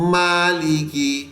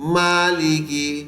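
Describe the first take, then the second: The two takes are said the same way.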